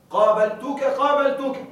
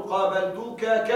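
First: Said in the usual way. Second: قابلتك ك with the ك said again as a separate beat; wrong doubled suffix. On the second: Shown as a demonstration. Teacher shows the wrong form to students: قابلتك ك with a stray ك. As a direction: slowly tack an extra ك onto قابلتك. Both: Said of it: "ولا تقل".

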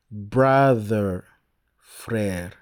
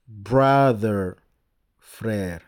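Both takes have the same delivery.

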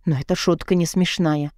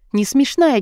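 First: Said in the usual way. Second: «Не смешная» выше и громче, удар на «смешная»; выкрикни «Не смешная», ударив «смешная»; взрыв. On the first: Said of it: "Не смешная, чёрт его подери!". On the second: A narrator's reading. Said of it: "чёрт его подери!". (повтори «Не смешная» со злостью, выше и громче)

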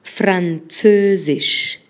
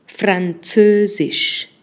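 First: Französisch repeated very slowly, every syllable held; slow teaching repeat of Französisch. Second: Französisch stretched syllable by syllable, very slow; slow teaching demo of Französisch. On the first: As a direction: drag out Französisch again. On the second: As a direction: spell out Französisch slowly for learners. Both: Shown as a demonstration. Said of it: "vamos a agregar el francés".

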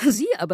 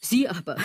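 First: Amused echo of her own words; laughing. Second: Said in the usual way. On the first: Acted. Mocking the model's image with a laugh. Repeats the phrase, then laughs.

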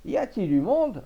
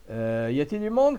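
First: Louder, higher call, more insistent; calling again louder. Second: A mild call into the empty shop. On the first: Old farmer calling again into the empty shop, louder. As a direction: raise the voice, nobody answered. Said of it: "répéta Maître Poivret". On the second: Old farmer entering the butcher's shop, mildly calling. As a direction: call out for someone, not too loud. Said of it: "cria-t-il". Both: Acted.

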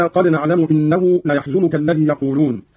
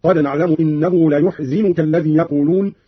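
First: Said in the usual way. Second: ليحزنك said "la-yuhzinuka"; u after the y and i after the z in ليحزنك; damma, then kasra. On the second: Shown as a demonstration. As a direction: turn ليحزنك into la-yuh-zi-nu-ka. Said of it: "بضم الياء وكسر الزاي".

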